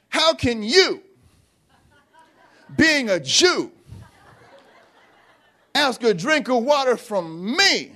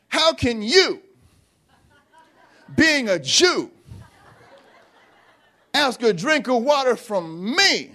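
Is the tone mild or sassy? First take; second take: sassy; sassy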